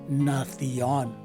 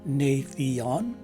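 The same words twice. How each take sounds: First: The first vowel is a short A sound. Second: The first vowel is a long A sound. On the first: "it's a short A in the second variation" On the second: "the letter A is a long A in the first variation"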